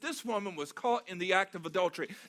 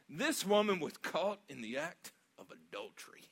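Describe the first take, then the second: First: It is read fairly plainly, without added tone. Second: It is said with a drawn-out, mocking tone. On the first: The verse is simply reported. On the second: The accusers are gloating and trying to trap him.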